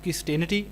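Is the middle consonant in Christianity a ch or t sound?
t. The middle consonant is a plain t sound. "British will read this word with T sound"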